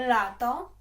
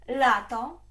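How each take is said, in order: Both takes have the same delivery.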